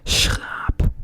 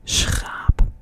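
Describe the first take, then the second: Both takes have the same delivery.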